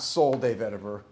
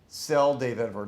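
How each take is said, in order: First: The first word sounds like 'soul'. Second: The first word sounds like 'cell'. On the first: The speaker calls it wrong. "not soul de vetiver" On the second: The speaker calls it right. "Cell de vetiver, not soul de vetiver"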